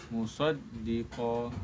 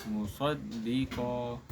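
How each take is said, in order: No difference in how they are said.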